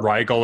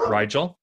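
First: Rigel with a hard g, RYE-gull. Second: Rigel with a soft g, RYE-jel. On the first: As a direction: say "Rigel" like "wriggle" with a long i. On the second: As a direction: say "Rigel" with a j sound in the middle. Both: Shown as a demonstration. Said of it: "I may butcher this pronunciation".

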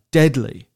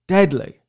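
First: Said in the usual way. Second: Deadly repeated and leaned on; stress on deadly. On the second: Real, not acted. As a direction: hit deadly hard to make it literal. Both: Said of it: "I use that word literally".

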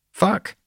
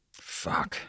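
First: Very high little curse; child cursing. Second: Hushed, voiceless curse; muttered to himself. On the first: Child copies father's swearing from behind hands, high curse. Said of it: "Irene cursed from behind her hands". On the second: Father spots who is at the window, muttered curse. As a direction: swear softly under the breath. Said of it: "Doug muttered to himself". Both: A narrator's reading.

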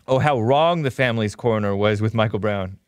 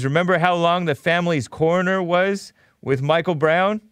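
First: "wrong" stressed in a lower-pitched correction; stress on corrected word. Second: Said in the usual way. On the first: Shown as a demonstration. Host correcting his misreading of a viewer's message, stress on "wrong". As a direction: lower voice, landing on "wrong" as the fix.

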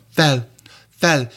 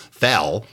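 First: FEL in a higher, put-on Hungarian accent; mock Hungarian accent, like a glamorous sister act; made-up Hungarian accent. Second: FEL said with a plain English accent. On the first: Linguist making up a Hungarian accent from film stars, mock Hungarian accent. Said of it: "make it up from Zsa Zsa Gabor and her sister". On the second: Linguist hearing himself say a Hungarian word, English accent. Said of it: "listen to me saying it so Englishly". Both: Shown as a demonstration.

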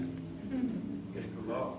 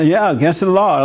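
First: Slow breathy whisper of the phrase; whispered aside. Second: Said in the usual way. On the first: Acted. Preacher muttering the phrase to himself, then repeating it, whispered. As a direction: drop to a slow, hushed whisper.

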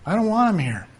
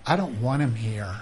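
First: "I don't want him here" pitched higher, "want" leaned on; mock indignant. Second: Said in the usual way. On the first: Shown as a demonstration. Preacher mimicking a churchgoer rejecting a visitor, higher and indignant. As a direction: rise up in put-on offense on "want".

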